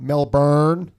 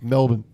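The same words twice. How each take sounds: First: It is pronounced the American way, ending in born. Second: It is pronounced the Australian way, ending in bin. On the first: The speaker calls it wrong. "It's not Melbourne. That's not how you pronounce it" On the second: The speaker calls it right. "It's Melbourne"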